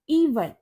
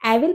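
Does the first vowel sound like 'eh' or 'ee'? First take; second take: ee; eh. First: The first vowel sounds like 'ee'. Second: The first vowel sounds like 'eh'. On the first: The speaker calls it right. "इसको हम बोलेंगे इवल" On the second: The speaker calls it wrong. "इसको एविल पढ़ोगे? नहीं"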